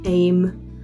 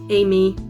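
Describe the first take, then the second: First: The name is said as one syllable, 'Aim'. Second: The name is said as two syllables, 'Amy'.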